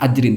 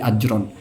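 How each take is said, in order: First: The word ends with an 'in' sound. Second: The word ends with an 'an' sound. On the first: The speaker calls it wrong. "bukan min ajrin" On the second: The speaker calls it right. "tapi ajron"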